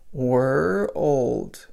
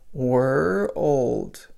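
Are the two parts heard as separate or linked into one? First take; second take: separate; separate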